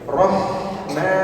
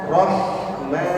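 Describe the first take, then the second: No difference in how they are said.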